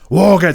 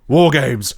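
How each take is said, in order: First: It is said with the most intensity. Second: It is said with more intensity.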